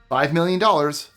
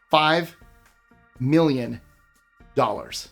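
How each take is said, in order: First: The phrase is said at a normal pace. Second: The phrase is said slowly and deliberately.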